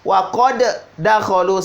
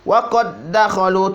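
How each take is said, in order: First: The first d is released separately with a bounce. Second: The two d sounds merge into one doubled d. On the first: The speaker calls it wrong. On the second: The speaker calls it right.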